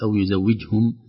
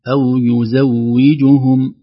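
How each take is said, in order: First: The short vowels are slurred together. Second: Every short vowel is fully pronounced. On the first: The speaker calls it wrong. "نخشى أن نقول" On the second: The speaker calls it right. "تحقيق الحركات"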